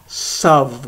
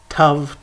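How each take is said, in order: First: The word begins with an s sound. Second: The word begins with a hard t sound. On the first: "Without a dagesh, it's sav with a s sound"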